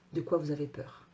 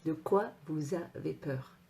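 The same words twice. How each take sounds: First: Said in the usual way. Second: DE QUOI VOUS AVEZ PEUR spaced out slowly; measured delivery, letting each word sink in; slow, pointed question. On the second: Shown as a demonstration. Coach challenging viewers who don't dare, slow and pointed.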